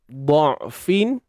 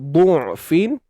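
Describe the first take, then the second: First: The first vowel is an open 'a' sound. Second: The first vowel is a rounded 'u' sound. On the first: "Kita boleh baca dengan baris atas" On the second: "baris depan bunyinya du'fin"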